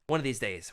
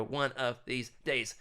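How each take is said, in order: First: Said in the usual way. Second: Each word drawn out deliberately; slow, emphatic repeat. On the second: Real, not acted. Host vowing to book an author someday, slow and emphatic. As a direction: stretch out ONE OF THESE DAYS word by word.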